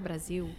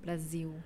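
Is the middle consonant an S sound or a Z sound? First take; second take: Z sound; Z sound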